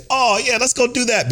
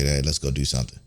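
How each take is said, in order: First: High, gushing mock-girly yes; mock eager girlfriend. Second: Lower, softer, timid little ask; mocking the girlfriend too nervous to ask her boyfriend, timid and soft. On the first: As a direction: chirp it like a giddy girlfriend. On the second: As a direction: mumble it like you're scared to ask. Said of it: "too nervous to contact your boyfriend".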